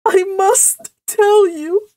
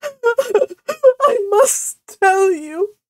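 First: High, slow tearful wail; loud, acted sobbing. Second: High, very slow words broken by sobs; hammed-up blubbering wail; heavy sobbing. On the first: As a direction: sob it, but keep the words clear. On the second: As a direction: sob so hard the words barely get out. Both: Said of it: "she sobbed".

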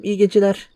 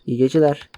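First: "İyi geceler" pitched up in a put-on old man's voice; mock grandpa goodnight. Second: Said in the usual way. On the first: Grandpa wishing the boy good night, "İyi geceler" higher and put-on.

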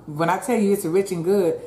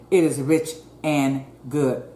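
First: Said in the usual way. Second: Is stressed firmly, "it IS rich". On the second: Shown as a demonstration. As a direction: punch the word is.

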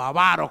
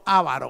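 First: "avaro" with the accent on VA; stress on second syllable. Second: "avaro" with the accent on the first A; stress on first syllable. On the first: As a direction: stretch the middle of "avaro", a-VA-ro. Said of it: "como usted lo quiera llamar". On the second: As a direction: start "avaro" on its strong syllable, AH-va-ro. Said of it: "la que tiene la tilde en la primera". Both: Shown as a demonstration.

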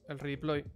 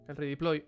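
No difference in how they are said.

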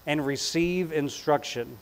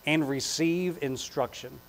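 No difference in how they are said.

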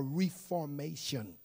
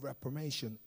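First: "reformation" split up, long "REE" opening; alternative pronunciation. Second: "reformation" run together, short first syllable; first pronunciation. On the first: Preacher offers congregation another way, "reformation" sounded out as "ree-formation". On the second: Preacher reading scripture tries a word, "reformation" with short first syllable. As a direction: say "reformation" quickly with an unstressed "ref" opening. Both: Shown as a demonstration. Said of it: "whichever way you want to pronoun".

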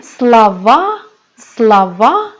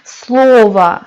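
First: Слова said sla-VA, loud long last syllable; слова with end stress, teacher's model; stress on final a. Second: Слово with a loud, long first o; СЛО-ва, stress at the front; singular form, first-syllable stress. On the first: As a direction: throw the weight onto the final a of слова. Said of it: "Vurgu a'ya düşüyor". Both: Shown as a demonstration.

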